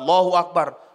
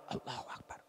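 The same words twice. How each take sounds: First: The phrase is said aloud, clearly audible. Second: The phrase is said very softly, barely audible. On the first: The imam recites it for all to hear. "Imam dong Allahu Akbar" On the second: The congregation does not really recite it. "kedengaran Allahu Akbar nggak kedengaran"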